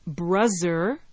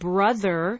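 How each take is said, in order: First: The middle consonant is a Z sound. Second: The middle consonant is a voiced TH sound.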